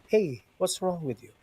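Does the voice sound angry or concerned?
concerned. It is said in a gentle, caring tone. The speaker is asking out of care. "if you say it, it may sound like this"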